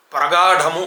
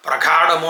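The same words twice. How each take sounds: First: ప్రగాఢము with plain g, breathy ఢ; careful model ప్రగాఢము, puff only on ఢ; correct aspirated dha. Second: ప్రగాఢము as pra-GHAA-damu, plain d; mispronounced aspirated gha. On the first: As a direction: say pra-gaa-DHA-mu for ప్రగాఢము. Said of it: "గాకి ఒత్తు లేదు". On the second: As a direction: wrongly puff the గ in ప్రగాఢము. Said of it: "అంటున్నారు". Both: Shown as a demonstration.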